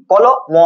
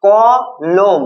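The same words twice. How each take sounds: First: কলম wrongly broken as কলো, then ম; wrong syllable split. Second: কলম very slowly in two beats, ক then লম; correct syllable split. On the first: Teacher shows students the wrong split, কলম as কলো-ম. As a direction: split কলম before a separate final ম. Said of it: "না, এরকম বলি না". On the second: Teacher shows students how we say it, কলম as ক-লম. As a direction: stretch কলম into ক, pause, লম. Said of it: "তাহলে কি আমরা বলি?". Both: Shown as a demonstration.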